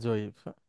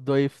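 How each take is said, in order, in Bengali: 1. শব্দটি j ধ্বনি দিয়ে শুরু হয়। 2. শব্দটি d-সদৃশ ধ্বনি দিয়ে শুরু হয়। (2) "দ- দইফ থেকে"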